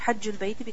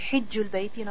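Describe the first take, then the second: First: The first vowel is an a sound. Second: The first vowel is an i sound. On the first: "not hajjul bayti" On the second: "hijju is easier to pronounce"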